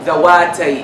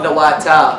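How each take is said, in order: First: The word ends with a long 'ee' vowel. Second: The word ends with a long 'aa' vowel. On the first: The speaker calls it right. "First of all" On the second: The speaker calls it wrong. "It's not ذواتا as most students read"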